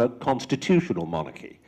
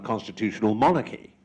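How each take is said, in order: First: The stress falls on the word constitutional. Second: The stress falls on the word monarchy. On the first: The speaker calls it right. "It's on a constitutional monarchy" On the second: The speaker calls it wrong. "You'd think it would be on a constitutional monarchy, but it's not"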